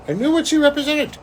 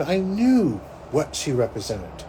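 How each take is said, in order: First: "I knew what she represented" all high and loud; emphatic insistence. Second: Said in the usual way. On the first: Real, not acted. Driving home a revelation, "I knew what she represented" high and loud. Repeats the words with emphatic force.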